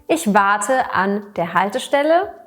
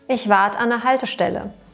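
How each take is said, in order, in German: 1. Präposition und Artikel werden voll gesprochen. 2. Präposition und Artikel werden zusammengezogen und verkürzt.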